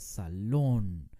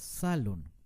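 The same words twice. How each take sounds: First: The stress is on the last syllable. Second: The stress is on the first syllable. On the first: The speaker calls it right. "con mucho énfasis en la última sílaba" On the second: The speaker calls it wrong. "no se dice salón"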